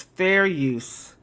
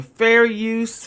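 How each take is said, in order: First: Said in the usual way. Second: "Fair use" with a loud, high push on "Fair"; emphatic fair use. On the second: Shown as a demonstration. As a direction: hit "Fair" hard and lift it.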